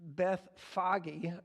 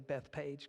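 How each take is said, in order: First: The second part begins with an F sound. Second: The second part begins with a P sound. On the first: "is how they pronounce this in, uh, I guess, in Hebrew" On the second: "I always say Beth Page because I just skip the H"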